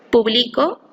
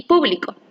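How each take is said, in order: First: Publico with the stress on BLI; publico, leaning on the second syllable, bli; stress on the middle syllable. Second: Público with the stress on PU; público, punched on pu, then falling away; stress on first syllable. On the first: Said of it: "la sílaba tónica es pli". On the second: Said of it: "en la sílaba pu". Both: Shown as a demonstration.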